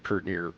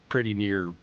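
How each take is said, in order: First: The word 'pretty' is shortened to 'pert'. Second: The word 'pretty' is said in full. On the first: The speaker calls it right. "You'd say" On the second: The speaker calls it wrong. "you certainly don't say"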